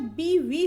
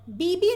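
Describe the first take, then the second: First: बीवी said slowly with a clear v in the middle; correct v sound. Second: बीबी said with a b sound in the middle, as the wrong form; teacher shows बीबी with b, not v. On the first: Teacher to exam students, slowly modelling the correct बीवी with v. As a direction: stretch out बीवी, landing on the v. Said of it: "बीवी होता है". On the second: Teacher to exam students, showing the wrong बीबी with b. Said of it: "बीबी नहीं होता है". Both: Shown as a demonstration.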